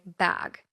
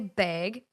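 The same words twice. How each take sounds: First: Bag is said with a California vowel. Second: Bag is said with a Minnesota vowel. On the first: "I changed my speech, and now I say bag" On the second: "That's a Minnesota thing"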